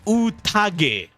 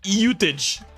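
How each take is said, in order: First: The word is said with Japanese-style pronunciation. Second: The word is said with American-style pronunciation. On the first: The speaker calls it right. "it's pronounced Utage" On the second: The speaker calls it wrong. "not Utage"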